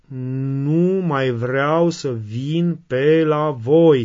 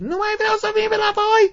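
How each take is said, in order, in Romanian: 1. Se spune rar și ferm, fără să strige. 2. Se strigă tare și furios.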